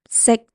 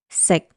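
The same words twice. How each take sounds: First: The short syllable is said in tone one. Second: The short syllable is said in tone six. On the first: "tone one is C, and if we add a K at the end, it's sick" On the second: "Tone six is C. Adding a K at the end is sick"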